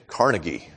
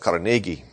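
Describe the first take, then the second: First: It uses the common American pronunciation of the name. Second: It uses a different, non-American pronunciation of the name. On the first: The speaker calls it wrong. "Most of us American-speaking people say Carnegie" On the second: The speaker calls it right. "but it's Carnegie"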